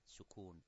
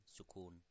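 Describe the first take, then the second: The two takes are said the same way.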